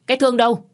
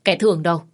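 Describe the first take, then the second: First: Booming call. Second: Loud calling out. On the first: Aunt storming in, yelling for Thương, booming. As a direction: call the name again, much higher and louder. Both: A narrator's reading. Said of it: "cái giọng oang oang của bác gái".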